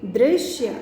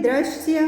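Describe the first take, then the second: First: "दृश्य" as "drish-shya", with an i vowel; correct pronunciation. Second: "दृश्य" with an a vowel, "drashya"; incorrect form. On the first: Teacher tells students how to read it, correct pronunciation. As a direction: start "दृश्य" with a clear "dri". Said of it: "दृश्य पढ़ेंगे इसे". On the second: Teacher reads out the word to be corrected, incorrect form. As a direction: open "दृश्य" with "dra" instead of "dri". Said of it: "लिखने में और बोलने में अंतर होता है". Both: Shown as a demonstration.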